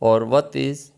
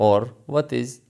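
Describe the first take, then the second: Both takes have the same delivery.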